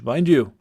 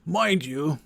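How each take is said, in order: First: "mind you" in a light Scottish lilt, falling; Scottish lad's aside; Scottish accent. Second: Put-on a creaky old sage's aside; old wizard voice. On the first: Acted. Cillian adding a word to the party, Scottish accent. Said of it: "my attempted Scottish accent". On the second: Merlin lecturing the Viking on druids, old wizard voice. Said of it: "the voice that I'm giving him".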